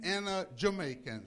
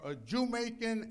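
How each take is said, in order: First: Said in the usual way. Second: "Jamaican" as "JEW-maican", stressed first syllable; punning pronunciation. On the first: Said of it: "So you're both". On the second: Shown as a demonstration. Preacher telling congregation they are both, "Jamaican" as JEW-maican. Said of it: "so they call me Jamaican".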